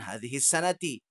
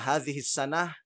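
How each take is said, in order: First: The last word ends with a final vowel. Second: The last word ends without a final vowel. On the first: "mereka mengatakan hadhihi sanati" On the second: "disukunkan atau tidak dibaca harokatnya"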